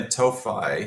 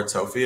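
First: "Tophi" ending like "fie", TOH-fye; first guessed pronunciation. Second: "Tofi" ending like "fee", TOH-fee; alternative pronunciation. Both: Shown as a demonstration. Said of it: "again, not sure how to pronounce it".

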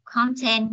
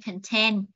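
First: Content said CON-tent, first syllable stressed. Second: Content said kən-TENT; weight the TENT in content, reduce the first syllable; stress on second syllable. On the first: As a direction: hit the CON in content with a full vowel. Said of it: "content nhấn vần một". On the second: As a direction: adjective content, stressed at the end. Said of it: "chúng ta nhấn vần hai". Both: Shown as a demonstration.

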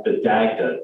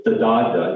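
First: Dagda with a short "a" as in "bag", g sounded; tentative pronunciation. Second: Dagda with an open "ah", g barely heard; chosen pronunciation. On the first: Lecturer tries the ancient Irish god's name, tentative "Dagda" as DAG-duh. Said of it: "that's probably not a correct pronunciation". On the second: Lecturer settles on a name for the god, "Dagda" as DAH-duh. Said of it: "I'm gonna call him the". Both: Shown as a demonstration.

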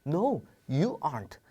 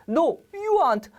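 First: Said in the usual way. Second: Much higher, louder and slowly drawn out; a firm no, pitched way up. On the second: Shown as a demonstration. Teacher acting out a refusal for students, high and slow.

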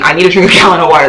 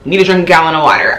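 First: Laughing. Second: Said in the usual way. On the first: Real, not acted. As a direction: crack up at how absurd it is. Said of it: "I'm blinking".

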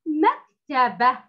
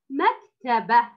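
First: Drawn-out مكتبة, rising at the end; slow model reading. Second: مكتبة repeated slowly; slow model reading. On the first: Teacher reads the second word to the pupil, slow. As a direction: read مكتبة slowly. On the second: Teacher repeats the word for the pupil, slow. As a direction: read مكتبة again slowly. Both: Shown as a demonstration. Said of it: "كلمة".

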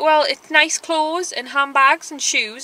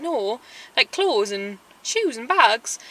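First: Said in the usual way. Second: Spelling it out slowly to someone not listening; patient but fed-up repetition; each word drawn out: clothes, shoes, bags; slow exasperated repeat. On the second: Retold or imitated.

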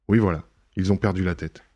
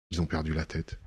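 First: Said in the usual way. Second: Softer, murmured to himself; half to himself, much softer; quiet aside. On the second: Acted. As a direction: drop it low as a private thought. Lupin musing aloud to himself.

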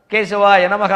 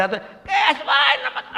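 First: Said in the usual way. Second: High, slow, strained screech; screechy dry throat. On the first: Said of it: "ఉచ్చారణ స్పష్టంగా". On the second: Shown as a demonstration. Speaker mocks chanting with no water in the throat, screechy and strained. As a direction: drag it out in a scratchy, garbled high voice. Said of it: "వాడు ఏమన్నాడో తెలియదు గీచు గొంతు".

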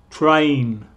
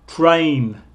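Both takes have the same delivery.

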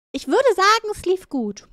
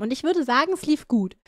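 First: Higher, ironic "würde". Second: Said in the usual way. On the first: Shown as a demonstration. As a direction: say "Ich würde sagen" high and knowing.

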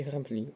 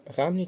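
First: Граблі stressed on the final лі; stress on second syllable. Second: Граблі with граб stressed, pitched up; stress on first syllable. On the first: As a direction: land on the last vowel of граблі. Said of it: "падає наголос тільки на другий склад". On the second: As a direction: hit the first vowel of граблі. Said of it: "Оберіть правильний варіант наголошення слова". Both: Shown as a demonstration.

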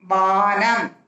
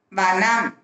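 First: வானம் with the "aa" held long; long vowel. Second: வனம் with a short first "a"; short vowel. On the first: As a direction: stretch the first vowel of வானம். (வானம் நெடிலாக, நீட்டி) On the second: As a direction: keep the opening of வனம் brief. (வனம் குறிலாக, குறுக்கி) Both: Shown as a demonstration. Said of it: "துணைக்கால் போட்டு".

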